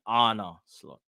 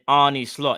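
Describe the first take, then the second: First: The first name ends in an 'uh' sound. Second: The first name ends in an 'ee' sound. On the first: The speaker calls it right. "it's Anna Slot" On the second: The speaker calls it wrong. "at first I was saying Arnie Slot. It's not Arnie"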